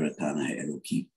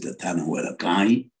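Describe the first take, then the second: First: The last word ends with an 'ee' sound. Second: The last word ends with an 'ai' sound. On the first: Calls the person godly and great. The speaker calls it right. "It's rather" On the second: Calls the person a god. The speaker calls it wrong. "I think it's wrong to pronounce it"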